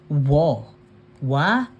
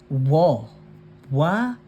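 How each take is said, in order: Both takes have the same delivery.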